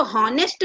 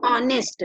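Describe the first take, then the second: First: "हॉनेस्ट" said with a spoken h at the start; wrong h-sound. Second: "ऑनेस्ट" starting straight on the vowel, no h; silent h. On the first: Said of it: "हम इसको हॉनेस्ट नहीं पढ़ते". ("हॉनेस्ट" में h बोलकर) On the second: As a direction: open "ऑनेस्ट" with a bare o sound. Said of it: "इसको हम क्या पढ़ते हैं". ("ऑनेस्ट" बिना h के, सीधे ऑ से) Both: Shown as a demonstration.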